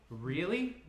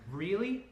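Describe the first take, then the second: First: High, louder, hurt rising question; angry disbelief. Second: High, loud, outraged rising question; angry disbelief. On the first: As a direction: repeat it, still stung. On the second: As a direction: throw it at him in outrage. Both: Acted. Ellie angry on the phone.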